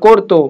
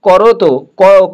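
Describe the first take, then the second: First: করতো said as one smooth natural word; right reading. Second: করতো stretched very slowly with the final o voiced, as the wrong way; slow, deliberately wrong sounding out; wrong reading. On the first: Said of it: "একবারে সুন্দর একটা শব্দ তৈরি হচ্ছে". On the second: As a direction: drag out করতো, sounding every syllable. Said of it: "এটা হবে না". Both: Shown as a demonstration.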